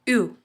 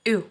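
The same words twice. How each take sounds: First: The sound is produced further back in the throat. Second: The sound is shaped forward with the tongue. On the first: "अगर हम ये सेम चीज़ गले से यूज़ करें तो it's like यू" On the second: "यू जब हम बोल रहे हैं तो हम अपने अ, जो टंग पार्ट है उसका यूज़ कर रहे हैं"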